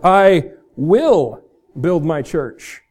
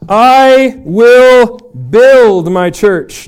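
First: The stress is on the word will. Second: The stress is on the word build.

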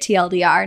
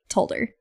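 First: The term is spelled out letter by letter. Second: The term is said as a word, like told her. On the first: The speaker calls it right. "you would say it TLDR" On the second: The speaker calls it wrong. "not like told her"

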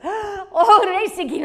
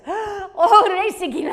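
First: The tone sounds bold, triumphant and assured. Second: The same.

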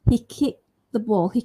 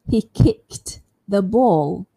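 First: The T in kicked is left out. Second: It is slow, with a clear T in kicked. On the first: "I can drop it by saying" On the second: "If I say it slowly, it sounds quite clear"

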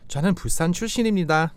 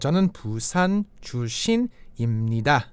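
First: It is said at a natural speed. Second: It is said slowly and carefully.

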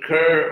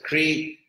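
First: The vowel sound comes before the r. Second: The vowel sound comes after the r. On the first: "the Sanskrit root kur" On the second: "or as devotees pronounce it"

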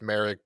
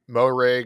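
First: The first syllable drops its O sound. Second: The first syllable keeps its O sound. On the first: "some people like drop the O when they announce it" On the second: "It's either Moehrig"

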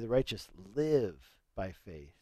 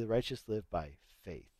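First: The stress is on "live". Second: The stress is on "faith".

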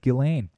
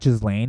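First: The name is said without an S sound. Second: The name is said with an S sound. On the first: The speaker calls it right. "apparently you don't pronounce the S" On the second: The speaker calls it wrong. "It's not Ghislaine"

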